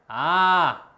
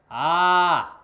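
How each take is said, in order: First: The vowel is produced at the front of the mouth. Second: The vowel is produced at the front of the mouth.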